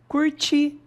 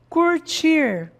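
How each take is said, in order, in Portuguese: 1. O R final é apagado. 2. O R final é claramente pronunciado.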